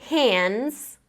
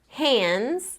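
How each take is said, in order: The two takes are said the same way.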